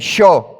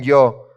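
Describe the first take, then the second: First: The first sound of the word is strong. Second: The first sound of the word is soft. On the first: "se escucha más, más fuerte" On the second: "no es un yo, mendocino"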